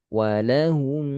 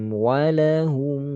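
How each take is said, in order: Both takes have the same delivery.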